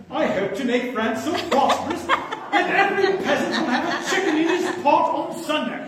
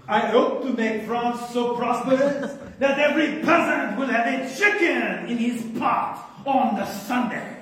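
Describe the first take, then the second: First: Higher, hammed-up English-accented royal quote; mock English accent. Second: Put-on playful French-accented royal quote; mock French accent. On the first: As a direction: play an English king for laughs. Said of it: "Henry the Fourth is English". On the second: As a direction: ham it up as a French king. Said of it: "So, no French accent".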